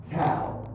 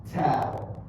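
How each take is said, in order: Both takes have the same delivery.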